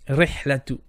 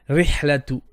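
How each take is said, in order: The two takes are said the same way.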